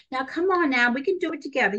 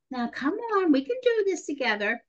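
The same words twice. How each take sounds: First: Lightly voiced cheerleader, pitched up; cheerleader coaxing. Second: High, sugary coaxing; sweet little voice. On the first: Young nurse coaxing a panicking adolescent in labor, lightly cheerleading. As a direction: coax them along with a touch of pep. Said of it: "you know, the cheerleader". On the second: Retold or imitated. Young nurse trying again with the patient, sweet little voice. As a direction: coax in a little sweet voice, pitched up. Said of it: "I said in my sweet little voice".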